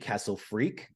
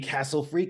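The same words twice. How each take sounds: First: The emphasis falls on the second word. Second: The emphasis falls on the first word. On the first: "or Freak" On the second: "whether to put the emphasis on Castle"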